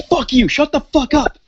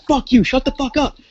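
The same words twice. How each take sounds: First: High, raging mock yell of "Fuck you, shut the fuck up"; woman yelling at the neighbour through the wall; angry yell. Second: High mock yell of "Fuck you, shut the fuck up"; woman yelling at the neighbour through the wall; angry yell. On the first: She yells at the neighbour. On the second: She yells at the neighbour again.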